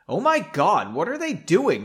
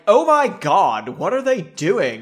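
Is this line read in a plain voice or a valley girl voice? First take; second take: plain; valley girl. First: It is read in a plain narrating voice. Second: It is spoken in an exaggerated valley girl voice.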